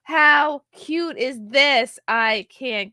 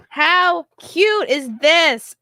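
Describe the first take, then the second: First: High, loud, slow coo; high slow delighted coo; gushing. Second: High, loud and slow, cooing over it; high slow gushing coo. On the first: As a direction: draw it out in delight. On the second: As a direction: stretch out cute in delight. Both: Real, not acted. Gushing over baby clothes.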